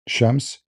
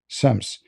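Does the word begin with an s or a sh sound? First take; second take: sh; s. First: The word begins with a sh sound. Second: The word begins with an s sound. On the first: This is the usual form of the word. "the word Shams suddenly became Sams" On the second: This is the eastern regional form. "the word Shams suddenly became Sams"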